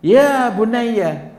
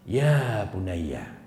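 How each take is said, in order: First: High, loud "Ya bunayya", drawn out slowly; loud call. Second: Slow, tender "Ya bunayya", drawn out gently; tender call. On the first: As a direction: call out the son, raised and strong. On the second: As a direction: call the son lovingly, unhurried. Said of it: "Diawali dengan panggilan sayang". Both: Shown as a demonstration.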